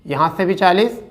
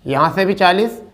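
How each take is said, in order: Both takes have the same delivery.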